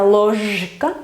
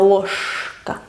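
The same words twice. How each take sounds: First: "ложка" with a held buzzing zh; voiced middle consonant. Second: "ложка" with a long hushing sh, slowly; devoiced consonant. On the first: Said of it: "no se pronuncia ложка". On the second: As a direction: stretch a voiceless sh in "ложка". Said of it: "porque después va la K". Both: Shown as a demonstration.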